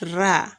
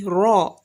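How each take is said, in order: First: The r sound is thin and light. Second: The r sound is thick and heavy. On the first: The speaker calls it wrong. "and not ra" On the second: The speaker calls it right. "Every time you see a raw, it is to be thickened"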